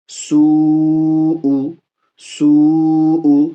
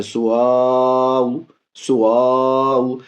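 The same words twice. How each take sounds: First: سوء stretched whole with the seen, drawn out and louder; correct long madd. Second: سواؤ with the waw pulled out separately; mock the children's سواؤ, waw stretched on its own; wrong waw stretch. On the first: Shown as a demonstration. Teacher recites the correct madd for students. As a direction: hold سوء as one long recited sound. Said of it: "تو یہ ہو گیا مد متصل". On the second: Teacher imitates pupils wrongly stretching the waw. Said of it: "اس کو بھی میں دیکھا بچے پڑھ رہے تھے".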